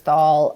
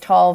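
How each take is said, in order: First: The syllable starts with a th sound. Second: The syllable starts with a plain t sound.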